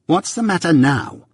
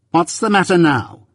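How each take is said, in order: First: High-pitched, sharp repeated question; sharp demand. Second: Higher-pitched, snappy demand; smart sharpness. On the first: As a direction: demand it sharply, pitch raised then dropping. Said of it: "repeated my sister more sharply". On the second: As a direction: ask it smartly, pitch raised then falling. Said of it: "said she smartly". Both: A narrator's reading.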